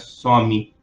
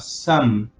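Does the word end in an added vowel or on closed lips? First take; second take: added vowel; closed lips. First: The word ends with an added vowel after m. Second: The word ends on an m with closed lips. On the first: The speaker calls it wrong. "não é some, não vai sumir aí" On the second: The speaker calls it right. "fechar a boca"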